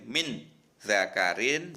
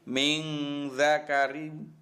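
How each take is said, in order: First: The n is pronounced clearly before the z. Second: The n is hidden into a nasal hum. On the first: The speaker calls it wrong. "Bacanya tidak boleh min zakarin" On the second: The speaker calls it right. "tapi min zakarin"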